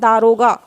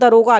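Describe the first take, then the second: First: The first vowel is long. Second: The first vowel is short. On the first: This is the standard correct form. The speaker calls it right. "शुद्ध शब्द है दारोगा" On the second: This is the everyday colloquial form. The speaker calls it wrong. "हम लोग आम बोलचाल में क्या बोलते हैं दरोगा"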